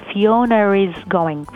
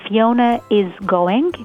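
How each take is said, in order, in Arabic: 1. صوت "r" يربط بين Fiona و is. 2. Fiona و is يتصلان بدون أي صوت "r". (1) "فبتلاحظوا إن زودوا الآر بين فيونا وإز" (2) "الاسم فيونا is going"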